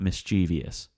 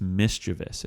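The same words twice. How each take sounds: First: The word has an extra ee syllable inserted. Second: The word has three syllables, no extra vowel. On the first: The speaker calls it wrong. "It's not mischievous. ... throwing another E in there" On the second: The speaker calls it right. "It's mischievous"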